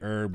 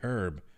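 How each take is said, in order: First: The word starts without an h sound. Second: The word starts with a clear h sound. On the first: The speaker calls it wrong. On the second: The speaker calls it right.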